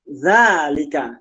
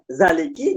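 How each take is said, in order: First: The word ends with an a vowel. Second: The word ends with an i vowel. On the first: The speaker calls it right. "Dia mesti dibaca zalika" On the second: The speaker calls it wrong. "Gak mungkin dibaca zaliki"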